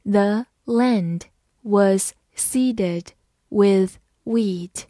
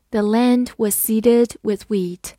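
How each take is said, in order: First: Very slow, word by word; teacher reading slowly. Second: Said in the usual way. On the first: Shown as a demonstration. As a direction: draw the sentence out for learners. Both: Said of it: "好，慢读一遍".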